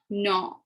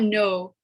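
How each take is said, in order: First: The vowel sounds like casual English 'nah'. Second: The vowel sounds like English 'no'. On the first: The speaker calls it right. "it's no. ... some people can say uh nah" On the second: The speaker calls it wrong. "it's not no"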